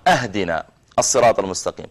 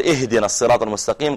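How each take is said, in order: First: أهدنا opened with "ah-", as "ahdina" not "ihdina"; mispronounced first vowel. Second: Said in the usual way. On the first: Shown as a demonstration. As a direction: say أهدنا with an open a at the start. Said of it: "وأهدي يعني أعطنا". (نطق خاطئ بفتح الهمزة في أهدنا) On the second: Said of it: "بدل ما يقول".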